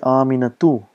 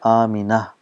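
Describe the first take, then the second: First: The name ends with a full 'tu' syllable. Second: The name ends softly with an 'h' sound. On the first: "if we're pronouncing on its own, we say Aminatu" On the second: "if we are ending at ta, we pronounce as it ha"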